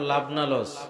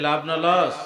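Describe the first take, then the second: First: The question is said at normal volume. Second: The question is said more loudly.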